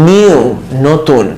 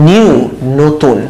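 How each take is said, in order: Both takes have the same delivery.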